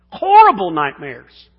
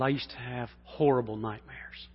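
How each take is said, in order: First: "Horrible nightmares!" burst out much louder; shouted repeat. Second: Said in the usual way. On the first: Shown as a demonstration. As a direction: blast "Horrible" loud, like a preacher.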